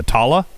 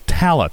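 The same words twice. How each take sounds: First: Tala with a broad "ah": TAH-luh; alternative pronunciation. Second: Tala with a short "a" as in "cat"; usual pronunciation. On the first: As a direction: open the first vowel of Tala to "ah". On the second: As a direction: say TAL-uh, first vowel as in "cat". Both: Shown as a demonstration. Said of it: "what is it supposed to be".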